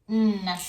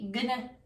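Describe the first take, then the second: First: Only an N sound is heard. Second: A G sound is heard before the N. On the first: The speaker calls it right. "It's just n" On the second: The speaker calls it wrong. "You don't say gonna"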